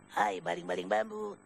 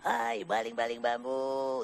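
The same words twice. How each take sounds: First: The line is said short, not drawn out. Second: The line is drawn out long.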